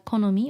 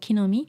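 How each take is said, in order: First: The first vowel is an 'o' sound. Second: The first vowel is an 'i' sound. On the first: "好み can be pronounced as 木の実 both are fine too" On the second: "Standard is more like 木の実"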